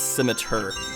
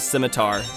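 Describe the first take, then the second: First: The last syllable sounds like 'er'. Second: The last syllable sounds like 'ar'. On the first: The speaker calls it right. "It's a E R instead of like an A R pronunciation" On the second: The speaker calls it wrong. "I always thought it was scimitar"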